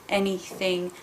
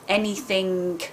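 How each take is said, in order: The two takes are said the same way.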